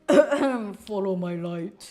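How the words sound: It is spoken in a put-on character voice.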